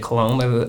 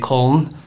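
First: It is said with an American English pronunciation. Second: It is said with a German pronunciation. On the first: "how us in America say it" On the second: "Out there, they say"

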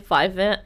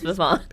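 First: The name is said in a plain, English-sounding way. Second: The name is said in a fancier, foreign-sounding way. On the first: This is the casual name used with clients. "if I say Vivant in this episode like I have previously" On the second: This is the brand's proper pronunciation. "please respect that I do know it's Vivant"

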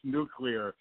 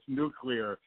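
First: The word is said as nu-clee-ar. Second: The same.

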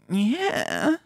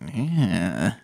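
First: It sounds disgusted but also lustful, horny. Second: It sounds purely disgusted, like 'get away'.

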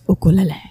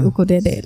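First: It is said in the Hawaiian way. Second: The l sounds are replaced by r-like sounds. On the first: "like the Hawaiian way" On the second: "in Japan they say ukurere because they don't have the L sound"

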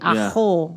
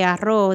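First: The middle consonant is an h sound. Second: The middle consonant is a trilled r sound. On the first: "With an H versus the R" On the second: "if you're going to say arroz"

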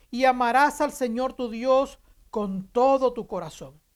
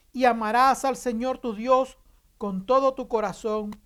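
The two takes are said the same way.

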